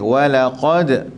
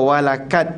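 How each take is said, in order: First: The q is a deep, heavy back sound. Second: The q is a plain light k sound. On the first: The speaker calls it right. "qaf q tebal" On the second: The speaker calls it wrong. "Jangan kita baca walakad, tak boleh"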